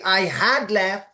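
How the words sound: The word had carries the stress. The speaker calls it wrong. "Don't say I had left"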